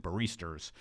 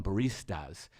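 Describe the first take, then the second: First: "baristas" with a New York R on the end; New York accent. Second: Said in the usual way. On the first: Shown as a demonstration. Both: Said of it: "That's my New York accent".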